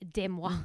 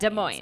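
First: The name is said with a French pronunciation. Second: The name is said with an American pronunciation. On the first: "if we were being French, it would be Des Moines" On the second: "They say Des Moines"

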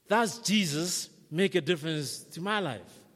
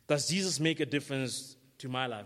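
First: It is asked in an unsure, doubtful tone. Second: It is asked in a certain, plain tone.

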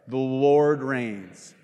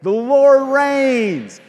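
First: It is said flatly, like a plain statement. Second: It is said loudly, with excited energy.

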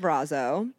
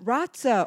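First: The middle consonant is a plain z sound. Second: The middle consonant is a ts sound. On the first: The speaker calls it wrong. "I've been saying it wrong" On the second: The speaker calls it right. "you say the T like pizza"

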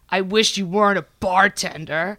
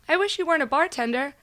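First: It is said in a heavy, serious tone. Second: It is said in a light, joking tone. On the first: It was a real rejection. "You read it like this" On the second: It was a casual joke. "I think she sent it like this"

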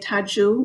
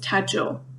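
First: The name ends in an oo sound. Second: The name ends in an oh sound. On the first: The boy is being addressed directly. "if you address him directly, you would say Tadzio with the U sound" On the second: The name is used in plain reference. "But the name is Tadzio"

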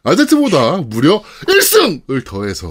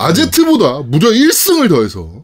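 First: It is said with strong, forceful emphasis. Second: It is said with mild emphasis.

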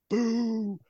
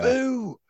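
First: It is a quick, spontaneous boo. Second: It is shouted really loud.

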